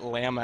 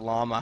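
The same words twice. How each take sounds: First: The word is said with a Canadian pronunciation. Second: The word is said with a non-Canadian pronunciation. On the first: "Perhaps it's just Canadian to say Llama" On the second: "as opposed to Llama"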